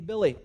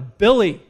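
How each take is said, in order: First: The name is said at normal, softer volume. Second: The name is said noticeably louder.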